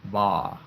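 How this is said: The final R sound is dropped.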